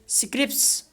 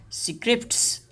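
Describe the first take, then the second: First: One consonant in the final cluster is dropped. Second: Every consonant in the final cluster is pronounced.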